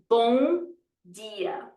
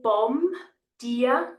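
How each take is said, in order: First: The first word ends in a nasal vowel. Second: The first word ends with a clear M sound. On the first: The speaker calls it right. "I'm going to nasalize the O" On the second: The speaker calls it wrong. "I'm not going to say bomb, dear"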